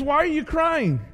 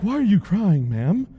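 First: Said in the usual way. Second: Stiff formal Jesus. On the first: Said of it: "he says". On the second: Retold or imitated. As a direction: play it as the proper, polite version. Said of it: "he wasn't like".

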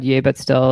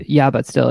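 First: Yay said as yay, rhyming with day; wrong name said. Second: Yeah said as a short yeah, like yah; self-correcting: Yeah with a flat short a; corrected name. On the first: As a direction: slip of the tongue: Yay with a long ay sound. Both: Real, not acted. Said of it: "Not Yay But Still".

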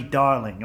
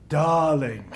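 First: Said in the usual way. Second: A light imitation of a glamorous star purring "Darling"; Tallulah Bankhead drawl. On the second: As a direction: tease out "Darling" like a tipsy old movie star. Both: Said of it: "she spoke slowly in this deep voice".

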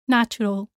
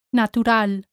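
First: Natural as NATCH-u-rul; ch sound in natural, English style; English pronunciation. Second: Natural as na-too-RAL; Spanish T in Natural, stress on final A; Spanish pronunciation. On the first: Teacher contrasts with Spanish, English NATCH-u-rul for natural. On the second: Teacher shows learners the Spanish word, na-too-RAL for Natural. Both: Shown as a demonstration. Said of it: "same in English and in Spanish".

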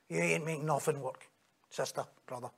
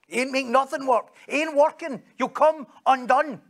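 First: Dropped low and soft, almost under the breath; a hushed, knowing reproach; low quiet rebuke. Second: Higher and louder, driving the point home; a preacher's raised warning, slowing at the end; rising loud rebuke. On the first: Preacher quietly rebuking the self-reliant believer, hushed and low. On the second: Preacher warning the congregation they'll come undone, loud and high. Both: Acted.

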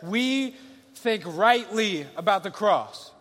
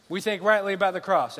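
First: "we think rightly about the cross" drawn out slowly, every word weighted; slow it right down and land each word; preacher driving the point home slowly; slow emphatic. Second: Said in the usual way. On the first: Shown as a demonstration.

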